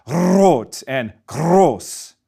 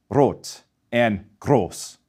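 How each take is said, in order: First: "rot" and "groß" with a long trilled rolled R, slowly; rolled R, wrong. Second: "rot and groß" with one light tongue-tip tap, slow and soft; single tap R. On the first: Teacher showing the wrong rolled R, trilled. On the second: Teacher showing the right German R after the wrong one, tapped. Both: Shown as a demonstration. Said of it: "we do not roll it".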